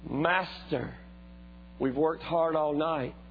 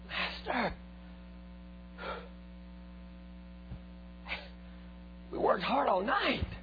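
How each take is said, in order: First: It is read in a plain, neutral tone. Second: It is said in a doubtful, skeptical tone. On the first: The speaker simply reports the failed night. The speaker calls it wrong. "I don't believe Peter said it like that" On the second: The speaker doubts the request will work. The speaker calls it right. "I believe he said it like this"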